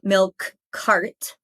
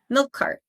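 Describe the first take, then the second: First: The k sound is pronounced twice, once per word. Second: A single k sound joins the two words. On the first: "instead of saying milk cart" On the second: "pronounce the k sound once and push it all together"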